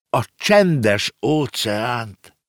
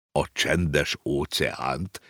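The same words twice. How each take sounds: First: Said in the usual way. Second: Lower, softer, slow astonished question rising at the end; wondering. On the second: A narrator's reading. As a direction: repeat it back in quiet amazement. (halk, csodálkozó visszakérdezés) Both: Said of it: "kérdezte a ló csodálkozva".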